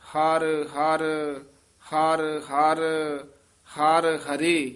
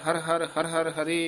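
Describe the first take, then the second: First: The words are grouped in pairs with pauses. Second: The words run together without grouping pauses. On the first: The speaker calls it right. "ਦੋ ਦੋ ਪਦ ਨਖੇਰ ਕੇ ਉਚਾਰਨ ਕਰਨੇ" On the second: The speaker calls it wrong. "ਇਉਂ ਬੋਲ ਜਾਂਦੇ ਹਨ ਉਹ ਬਿਲਕੁਲ ਗਲਤ ਹੈ"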